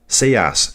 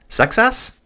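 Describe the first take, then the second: First: The name is said without a 'ks' sound. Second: The name is said with a 'ks' sound. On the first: "Should I just drop the X?" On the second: "I know the French pronounce it Sexas"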